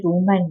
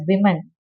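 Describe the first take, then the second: First: "women" said like singular "woman", WOO-man; women misread as woman. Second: "women" said WIM-in; women pronounced as plural. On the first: Teacher showing students the wrong reading, women as WOO-man. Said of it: "you don't read it women". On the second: Teacher correcting students' reading, women as WIM-in. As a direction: say "women" with a short wi first syllable. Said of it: "we pronounce it as women". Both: Shown as a demonstration.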